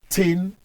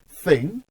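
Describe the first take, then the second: First: The word begins with a hard 't' sound. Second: The word begins with a soft 'th' sound. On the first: The speaker calls it wrong. "not tin" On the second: The speaker calls it right. "remember it is thing"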